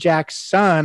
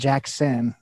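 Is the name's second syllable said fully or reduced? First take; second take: full; reduced. First: The name is said as two full words. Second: The second syllable is said quickly and weakly. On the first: The speaker calls it right. "it should be Jack's son" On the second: The speaker calls it wrong. "I even say Jackson. We just kind of, we mess up"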